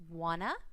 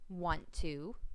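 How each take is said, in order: First: The two words are blended into a reduced form. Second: The two words are said fully and separately. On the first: The speaker calls it wrong. "slurring your words together" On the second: The speaker calls it right. "instead of"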